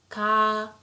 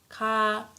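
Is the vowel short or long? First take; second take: long; long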